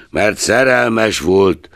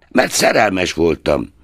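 First: Slow, mocking echo of szerelmes; a hint of a grumbling old miser's sneer; mock growl. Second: Said in the usual way. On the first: A narrator's reading. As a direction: drag out szerelmes with scorn. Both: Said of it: "morogta Scrooge".

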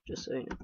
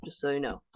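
First: Unvoiced whispered aside of Just so you know; soft whispered repeat. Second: Said in the usual way. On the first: Shown as a demonstration. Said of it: "whispered repeat". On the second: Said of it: "repeat whispered".

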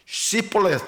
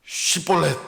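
First: "시볼렛" begun with hissed s, as ssi; high "시볼렛" with s instead of sh; Ephraimite mispronunciation. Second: "시볼렛" begun with a hushing sh, as shwi; raised "시볼렛" with rounded sh onset; correct shibboleth. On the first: Showing how Ephraimites failed the test, "시볼렛" with plain s. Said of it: "이렇게 발음이 되는 거예요". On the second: Gileadites ordering the test word, "시볼렛" with sh. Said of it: "시볼렛이 안 되고". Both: Shown as a demonstration.

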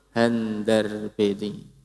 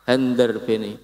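First: "Handar beni" drawn out slowly, each syllable held; slow term demo. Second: Said in the usual way. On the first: Shown as a demonstration. ("Handar beni" diucapke alon-alon) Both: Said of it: "Nek cara basa Jawane apa?".

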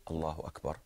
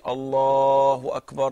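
First: Soft, low, contained recitation; not shouting. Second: Loud, long-drawn shouted call; shouted demo. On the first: Teacher contrasting with a shout for students, said softly. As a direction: say it low, just for those nearby. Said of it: "But if I say". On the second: Teacher showing students what shouting the takbir is, shouted. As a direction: shout it out, stretching the first word. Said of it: "this is shouting". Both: Shown as a demonstration.

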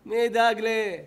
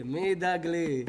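First: Louder, sharper repeat of ידאג; louder repeated question; louder demand. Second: Slow, drawn-out question; slow rhetorical question; slow musing. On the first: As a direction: press the word ידאג harder. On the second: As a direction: let the question hang slowly. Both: Shown as a demonstration. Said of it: "repeated question".

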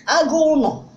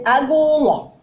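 First: "Agụ ụlọ" said locally with N replacing the L, "agụ ụnọ". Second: "agụ ụlọ" with a clear L in the last syllable. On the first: Teacher showing the local pronunciation, "Agụ ụlọ" said as "agụ ụnọ". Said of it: "how it been pronounced, uh, locally". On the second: Teacher showing what some people say, "agụ ụlọ" with L. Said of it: "Some people say". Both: Shown as a demonstration.

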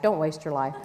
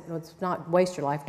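First: Laughing through "don't waste your life"; laughing correction. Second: Said in the usual way. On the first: Shown as a demonstration. Speaker fixing a misquoted book title, laughing. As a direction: let a laugh break in on "don't". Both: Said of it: "he said".

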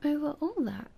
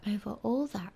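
First: Put-on higher, wondering child prince; little prince. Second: Lower, settled royal confirmation; king. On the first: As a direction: echo it in a raised, amazed voice. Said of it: "said the little prince". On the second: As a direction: confirm it as a self-assured king, falling. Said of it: "replied the king". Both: A narrator's reading.

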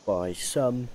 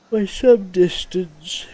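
First: Said in the usual way. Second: Words stretched through a big yawn. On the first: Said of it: "apologies, yawning". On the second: Real, not acted. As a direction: yawn mid-phrase, dragging it out.

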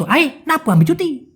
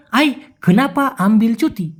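First: High, run-together "নাপু আমি ছুটি"; quick slang. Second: "কেনাপা" with all syllables sounded; clear pronunciation. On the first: Teacher showing fast speech, high and slurred. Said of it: "দ্রুত". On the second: Teacher giving the careful question, clearly separated. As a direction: articulate the l in "আমবিল". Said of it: "যদি স্পষ্ট করে বলে". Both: Shown as a demonstration.

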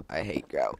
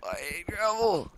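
First: Low, grumbling take. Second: High, slow, drawn-out whine. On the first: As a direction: drop the voice down low. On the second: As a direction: stretch it out up high. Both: Acted. Repeats line in varied voices.

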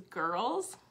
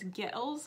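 First: Said in the usual way. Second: "Gettles" for girls, imitating a Scottish accent; Scottish pronunciation. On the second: Explaining grandma's word, "Gettles" said as Scottish-accented girls. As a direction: say "Gettles" as a Scot's two-syllable girls. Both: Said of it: "which was girls".

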